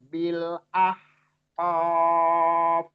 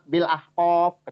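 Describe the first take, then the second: First: The 'bil' is fully pronounced at a moderate pace. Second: The 'bil' is rushed and said too quickly. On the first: The speaker calls it right. "bilnya itu disempurnakan dulu pelafalannya, tapi jangan ditahan" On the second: The speaker calls it wrong.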